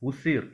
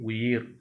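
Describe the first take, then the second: First: The middle consonant is an s sound. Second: The middle consonant is a y sound. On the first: The speaker calls it wrong. "அடுத்தது உசிர்" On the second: The speaker calls it right. "அது உயிர்"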